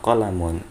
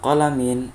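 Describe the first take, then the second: First: The word ends with the sound -un. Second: The word ends with the sound -in. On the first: "wa laisa qalamun" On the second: "Laisa qalamin"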